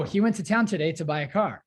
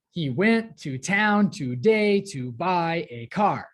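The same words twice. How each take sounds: First: Said in the usual way. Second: Slow, heavy beats on "went", "town", "car"; exaggerated iambic rhythm. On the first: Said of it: "completely one hundred percent normal sentence you might say". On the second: Shown as a demonstration. Teacher giving students another example, overemphasized "went", "town", "buy", "car". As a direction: pound every second syllable: "he WENT to TOWN toDAY to BUY a CAR". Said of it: "overemphasize, exaggerate every other one like that".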